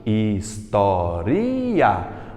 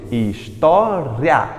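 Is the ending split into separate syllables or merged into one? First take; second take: separate; merged. First: It is said slowly, syllable by syllable. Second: The ending is run together into one syllable. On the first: This is how it is said in Brazil. "Eu falei pausadamente" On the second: This is how it is said in Portugal. "Lá em Portugal, eles pronunciam história em uma sílaba só"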